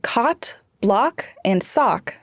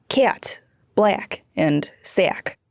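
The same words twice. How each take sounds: First: Said in the usual way. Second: Slow "cat, black, and sack" as fronted cot, block, sock; Northern Cities vowel shift. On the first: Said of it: "The short o sound". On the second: Shown as a demonstration. Reporter showing Michigan short O turned to A in "cat, black, and sack". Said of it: "then took the short a place".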